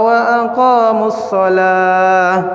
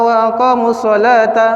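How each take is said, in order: First: The last word ends with an h sound. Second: The last word ends with a ta sound. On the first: The reciter stops at this word. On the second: The reciter continues without stopping.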